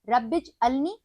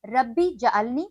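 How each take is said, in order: First: The j sound is joined to the first word. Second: The j sound starts a separate second word. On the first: The speaker calls it right. "सही" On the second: The speaker calls it wrong. "गलत"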